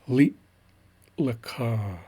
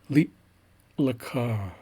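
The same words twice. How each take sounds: First: There is a long, exaggerated pause after li. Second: There is a long, exaggerated pause after li.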